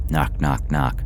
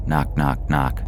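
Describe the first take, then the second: No difference in how they are said.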